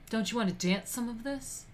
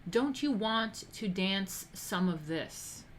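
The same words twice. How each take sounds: First: Put-on light Italian mobster accent, rising end; a wiseguy's Italian-accented come-on; hint of an Italian gangster accent; Italian mafioso accent. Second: Drawn-out, slow come-on line; slow wiseguy invitation; slow mafioso ask. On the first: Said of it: "with an Italian accent included". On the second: Retold or imitated. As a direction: stretch the invite out slowly. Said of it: "that's the mafioso way of asking".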